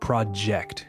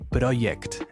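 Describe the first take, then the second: First: The middle consonant is a clear J sound. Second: The middle consonant is not a J sound. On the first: The speaker calls it right. "The sound we're looking for is the J sound" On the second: The speaker calls it wrong. "they're not making that J sound"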